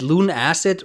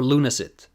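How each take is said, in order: First: It is said as two words, Luna plus acid. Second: It is said as one word, like lunacy. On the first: The speaker calls it wrong. "instead of acid" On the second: The speaker calls it right. "like lunacy"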